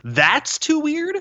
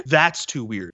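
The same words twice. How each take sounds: First: High, slow, stretched disbelieving question; incredulous echo. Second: Said in the usual way. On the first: Retold or imitated. Mocking the hero's complaint with a slow incredulous rise. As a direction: echo his words back in mock disbelief.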